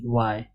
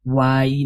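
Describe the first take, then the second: First: वाई short, as one gliding syllable "why"; correct letter name Y. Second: वाई with a long full ee ending; wrong letter name Y. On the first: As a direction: say वाई lower and softer, without a long ee. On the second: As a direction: stretch वाई out to "vaa-ee". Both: Shown as a demonstration. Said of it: "वाई नहीं".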